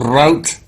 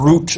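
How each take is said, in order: First: The word is said the American way. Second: The word is said the British way.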